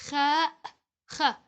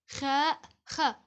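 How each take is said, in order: The two takes are said the same way.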